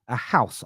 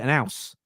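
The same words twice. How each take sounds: First: "house" with its H clearly sounded; careful H pronunciation. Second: "an house" run together as an 'ouse; dropped H. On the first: Host showing what he doesn't say at home, "house" with a full H. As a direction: breathe the H at the start of "house". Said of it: "I don't call". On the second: Host showing what he calls his home, "house" with no H. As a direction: start "house" straight on the vowel. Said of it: "like with a capital A". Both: Shown as a demonstration.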